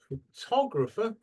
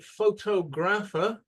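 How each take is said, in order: First: The stress is on the second syllable. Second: The stress is not on the second syllable. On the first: Listeners will understand the word. The speaker calls it right. "then they will fully understand" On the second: Listeners will not understand the word. The speaker calls it wrong. "like this, people will not know what you're talking about"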